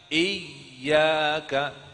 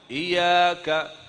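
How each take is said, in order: First: The y sound is held and doubled. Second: The y sound is short and single. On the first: The speaker calls it right. "Nampaknya seperti ada dua ya" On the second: The speaker calls it wrong. "bukan iyyaka"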